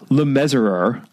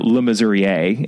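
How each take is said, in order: First: The name is pronounced the English way. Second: The name is pronounced the French way.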